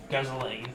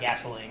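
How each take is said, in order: First: The word is said in a heavy Australian accent. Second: The word is said in a plain, neutral accent. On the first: "he says gasoline ... because he has a really heavy Australian accent" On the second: "instead of gasoline"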